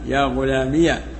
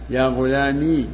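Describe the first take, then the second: First: The word ends in -iya with a final h. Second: The word ends in a long i vowel. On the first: "وفتحها" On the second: "وإثباتها"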